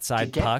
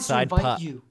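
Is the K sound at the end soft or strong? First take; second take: strong; soft. First: The final K sound is hit clearly and hard. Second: The final K sound is softened and weak. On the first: The speaker calls it right. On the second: The speaker calls it wrong.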